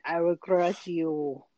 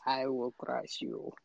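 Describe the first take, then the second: First: Slow mock Russian Drago line; slow menacing Russian boxer; Russian accent. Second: Low, soft, slow mock Russian threat; Russian accent. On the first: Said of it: "do the Rocky". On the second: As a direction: growl it low like a Russian boxer. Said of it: "I can't get the accent".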